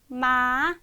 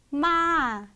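First: The pitch rises steadily throughout. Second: The pitch rises and then falls. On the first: "쭉 올라가는 음으로" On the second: "올라갔다가 내려오는 음이에요"

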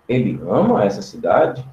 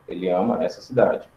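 First: It is said with questioning intonation. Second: It is said with flat statement intonation. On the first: It asks whether he loves the town. "eu mudaria a pronúncia" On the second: It asserts that he loves the town. "Isso é uma frase afirmativa"

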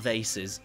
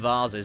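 First: The word is said in an American accent. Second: The word is said in a British accent. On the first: The speaker calls it wrong. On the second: The speaker calls it right. "we call them"

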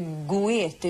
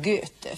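First: The o and e are pronounced as two vowels. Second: The vowel is pronounced as a single ö sound. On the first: The speaker calls it wrong. "det heter inte goete" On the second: The speaker calls it right. "oe uttalas som ö"

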